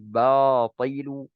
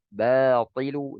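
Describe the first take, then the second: First: The first sound is said heavy and thick. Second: The first sound is said light and thin. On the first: The speaker calls it wrong. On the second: The speaker calls it right.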